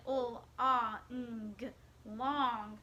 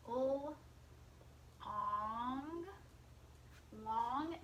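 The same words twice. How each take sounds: First: "ah, ng" split apart, not glued into "ong", slightly louder; separate sounds. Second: "Ol-, ong, long" with "ong" kept as one glued chunk, then the whole word "long"; glued sound tapping. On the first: Teacher showing the class the wrong way to sound out long. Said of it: "I'm not saying". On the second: Teacher modelling for the class how to tap long with the glued ong sound. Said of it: "I'm not sounding out each individual sound". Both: Shown as a demonstration.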